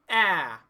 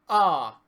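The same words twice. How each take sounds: First: The vowel sounds bright and tight. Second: The vowel sounds open and relaxed.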